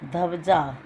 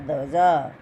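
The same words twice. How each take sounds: First: धब्जा said with a full ध and a b sound; wrong pronunciation. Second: ध्वजा with a half ध joined to व; correct pronunciation. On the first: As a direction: say धब्जा as the mistaken spelling reads. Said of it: "धब्जा नहीं होता". (गलत उच्चारण धब्जा) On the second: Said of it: "इसमें आधा ध आता है". (सही उच्चारण ध्वजा) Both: Shown as a demonstration.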